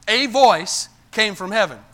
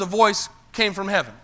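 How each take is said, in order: First: A set apart as a full "ay"; emphatic "ay" on A before voice; stress on A. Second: Said in the usual way. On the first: Shown as a demonstration. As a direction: say A as a long "ay", then VOICE firmly. Restates the line with emphasis.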